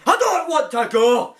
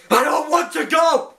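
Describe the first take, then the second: First: Light take on Tennant's despairing plea; hint of the Tenth Doctor refusing to leave; David Tennant impression. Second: Lightly voiced tearful Tenth Doctor; a hint of Tennant's pleading; David Tennant impression. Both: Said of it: "that's my impression of David Tennant".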